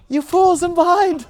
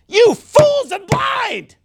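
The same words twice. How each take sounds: First: It is said in a gentle, smiling tone. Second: It is said in a harsh, scolding tone. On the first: The speaker seems kindly rather than rebuking. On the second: The speaker is rebuking the listeners.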